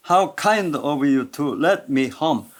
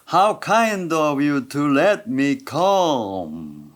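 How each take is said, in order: First: Kind carries the main beat in a slow connected line; "How kind of you" with kind leaned on; stress on kind. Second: Kind, let and come stretched, come held longest; very slow, with a long falling come at the end; drawn-out stresses. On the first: Teacher repeating the example, connected line with kind stressed. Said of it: "친절하다는 게 제일 강조되니까". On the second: Teacher's final model, stretched kind, let and come. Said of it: "어쨌든 하나씩 보자면". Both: Shown as a demonstration.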